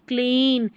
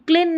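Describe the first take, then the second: First: The vowel is a long 'ee' sound. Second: The vowel is short, like in 'lip'. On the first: The speaker calls it right. "बड़ी ई की जैसे पढ़ रहे हैं" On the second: The speaker calls it wrong. "क्लीन नहीं"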